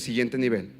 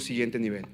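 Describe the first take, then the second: First: It is said more loudly. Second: It is said at normal volume.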